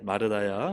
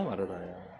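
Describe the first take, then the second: First: A rising first call of the name 마르다야, lower than the preacher's usual voice; gentle call. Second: 마르다야 repeated softer and lower, falling away; tender soft repeat. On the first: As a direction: call 마르다야 with a lifted ending, as Jesus speaking to her. (예수님이 마르다를 처음 부르는 올라가는 부름) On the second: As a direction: say 마르다야 again quietly, as a tender second call. (예수님이 마르다를 다시 부르는 부드럽고 조용한 부름) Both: Acted. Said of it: "주께서 대답하여 이르시되".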